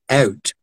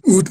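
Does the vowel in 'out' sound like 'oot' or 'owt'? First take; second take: owt; oot. First: The vowel is a subtle diphthong. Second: The vowel is a pure 'oo' sound. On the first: "But here it's more subtle. It's out" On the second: "That's Geordies say oot in a boot"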